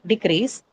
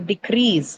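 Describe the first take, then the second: First: The stress is on the first syllable. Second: The stress is on the second syllable. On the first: The speaker calls it wrong. "not decrease" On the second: The speaker calls it right. "So decrease"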